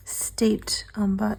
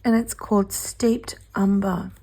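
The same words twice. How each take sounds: First: Hoarse slow whisper; breathy, slow hoarse whisper; raspy whisper. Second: Said in the usual way. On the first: Real, not acted. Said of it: "Sorry, I'm losing my voice". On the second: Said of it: "How perfect is that?".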